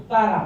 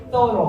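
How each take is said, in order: First: ซาร่า with open A in place of O; variant with A vowels. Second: โซโล with tongue out on the first sound, O at the end. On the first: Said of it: "ครูชอบอเมริกันมากกว่า ออกง่ายกว่า". (ซาร่า ออกเสียงสระอาแทนโอ) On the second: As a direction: say โซโล with a TH start and a round O ending. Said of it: "แลบลิ้นด้วยค่ะ". (โซโล แลบลิ้นเสียงต้น ลงท้ายเสียงโอ) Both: Shown as a demonstration.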